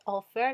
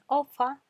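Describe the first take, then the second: First: The final r is clearly pronounced. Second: The final r is dropped, ending in a vowel. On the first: "en vez de decir offer" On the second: "ellos dicen ofa"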